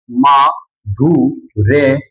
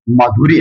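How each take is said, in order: First: माधुर्य stretched very slowly, each syllable held long; drawn out. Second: Said in the usual way. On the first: Shown as a demonstration. Teacher repeating the answer for students, slowly drawn out. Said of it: "क्या बन जाएगा?". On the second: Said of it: "तो क्या बन जाएगा?".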